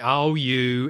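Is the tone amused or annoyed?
amused. It sounds fondly amused and teasing.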